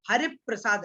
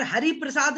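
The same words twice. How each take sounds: First: हरिप्रसाद as "harip-prasad", प closing रि; joined conjunct. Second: हरिप्रसाद as "hari-prasad", open रि before प्र; unjoined reading. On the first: Teacher giving pupils the correct reading, हरिप्रसाद joined as harip-prasad. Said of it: "क्या बोलना है". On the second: Teacher showing what not to say, हरिप्रसाद unjoined as hari-prasad. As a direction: leave हरि apart from प्रसाद in हरिप्रसाद. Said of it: "नहीं बोलना है". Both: Shown as a demonstration.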